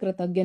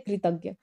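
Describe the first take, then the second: First: The first syllable sounds like kra. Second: The first syllable sounds like kri. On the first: The speaker calls it wrong. "लेकिन ये कृतज्ञ नहीं होता है" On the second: The speaker calls it right. "ये होता है कृतज्ञ"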